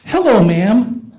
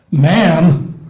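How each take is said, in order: First: Slow, drawn-out "Hello, ma'am" as a telemarketer; a lightly voiced polite caller; imitating caller. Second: "Ma'am" pushed down a notch, lower and firmer. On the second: Retold or imitated. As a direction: drop the voice to sound manlier. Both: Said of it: "take it down a notch".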